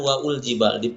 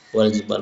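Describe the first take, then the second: First: An extra u vowel comes before l. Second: Wa runs straight into the l sound. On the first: The speaker calls it wrong. "bukan waul jibal" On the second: The speaker calls it right.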